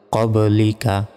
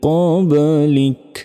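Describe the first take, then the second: First: The word ends with an a vowel. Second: The word ends on a bare k sound. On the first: The reading continues without a stop. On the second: The reader stops and takes a breath here.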